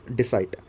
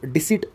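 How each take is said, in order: First: "डिसाइट" with a long eye vowel, dee-site; mistaken pronunciation. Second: "डिसीट" with an ee vowel, dee-seet; actual pronunciation. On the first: Teacher introducing the word to students, "डिसाइट" said as dee-site. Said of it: "डिसीट actual में pronunciation होता है". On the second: Teacher correcting the pronunciation for students, "डिसीट" said as dee-seet. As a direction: say "डिसीट" to rhyme with seat. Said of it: "actual में pronunciation होता है". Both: Shown as a demonstration.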